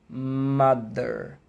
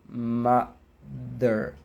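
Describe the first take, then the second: The two takes are said the same way.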